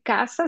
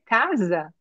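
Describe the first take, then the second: First: Said in the usual way. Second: "casa" with a buzzing voiced z for the s; voiced z sound. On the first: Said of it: "En vez de decir casa". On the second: Shown as a demonstration. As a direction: say "casa" as CA-za, Portuguese-style z. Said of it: "ese sonido z".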